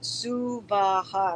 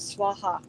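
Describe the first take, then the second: First: The word has three syllables, su-va-ha. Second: The word has two syllables, swa-ha. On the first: The speaker calls it right. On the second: The speaker calls it wrong.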